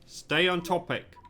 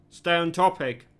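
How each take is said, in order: First: Firm, clipped command to stay on topic; stern order. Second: Louder stern order. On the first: Chief of Security orders Lewis back on topic, stern. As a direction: shut the suspect down, curt and firm. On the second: Chief of Security snaps at Lewis to stay on topic, louder. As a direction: repeat the command with more force, near barking. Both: Acted.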